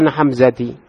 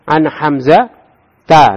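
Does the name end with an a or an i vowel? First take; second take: i; a. First: The name ends with an i vowel. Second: The name ends with an a vowel. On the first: The speaker calls it wrong. "tidak ada an Hamzati" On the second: The speaker calls it right.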